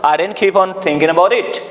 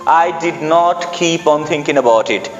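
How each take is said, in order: First: 'Did not' is contracted to 'didn't'. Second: 'Did not' is said in full, clearly.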